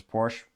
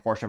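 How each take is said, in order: First: Porsche in one syllable, "porsh"; alternative pronunciation. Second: Porsche in two syllables, "POR-shuh"; alternative pronunciation. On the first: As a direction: drop the final e in Porsche. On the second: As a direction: sound the final e in Porsche. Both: Shown as a demonstration. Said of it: "Kinda like Porsche versus Porsche".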